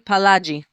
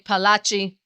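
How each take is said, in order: First: The consonant before the last vowel sounds like 'j'. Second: The consonant before the last vowel sounds like 'ch'. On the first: "depending on the g or the ch" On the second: "or as some like to say"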